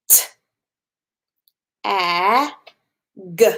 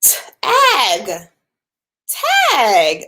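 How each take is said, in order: First: T, a, g as separate sounds with clear gaps; sounds said apart. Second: Tag blended into one quick word; blended quicker. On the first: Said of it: "let's try it again". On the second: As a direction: run the sounds together into Tag. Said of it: "I'm gonna do it a little bit quicker". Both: Shown as a demonstration.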